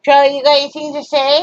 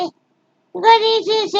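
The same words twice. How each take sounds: First: Said in the usual way. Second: Squeaky high doggy talk; high baby talk to dog. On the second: Acted. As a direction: coo it up high to a pet.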